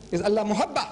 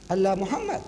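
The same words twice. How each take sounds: First: "Muhabba" with a doubled b and no m, stressed; Allah Muhabba corrected. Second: "Muhammad" read with the m sound, as the eye first takes it; Allah Muhammad as misread. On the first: Preacher reveals the true word to the audience, pointed "Muhabba". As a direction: correct him: say "Muhabba", leaning on the bb. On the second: Preacher shows the audience the misreading, saying "Muhammad". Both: Shown as a demonstration. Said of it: "This is not Allah Muhammad".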